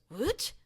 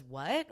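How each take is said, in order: First: High-pitched confused dog saying "What?"; Monty. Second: Said in the usual way. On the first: Acted. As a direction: put on a puzzled pet voice, rising sharply. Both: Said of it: "That's how he says it".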